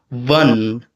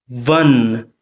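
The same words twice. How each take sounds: First: It begins with lip-on-teeth contact, like a v. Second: The same.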